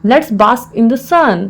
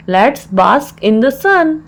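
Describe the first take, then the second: First: Said in the usual way. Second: Slow, word-by-word teaching delivery; slow repeat. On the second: Shown as a demonstration. Teacher repeats the English phrase for learners, slowly.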